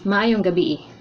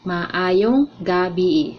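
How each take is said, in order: First: The phrase is said at normal speed. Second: The phrase is said slowly and carefully.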